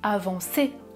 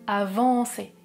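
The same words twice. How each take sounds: First: The stress is on the last syllable. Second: The stress is on the second-to-last syllable. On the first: "on met l'accent sur la dernière syllabe du mot" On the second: "il met l'accentuation sur l'avant-dernière syllabe"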